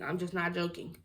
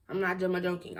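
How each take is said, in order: First: Said in the usual way. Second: "ma-joking" with an added "ma" before joking; "ma-joking", an extra unstressed syllable ahead of joking. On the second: Retold or imitated. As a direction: say "ma-joking", slipping "ma" in front. Odd word repeated, then corrected.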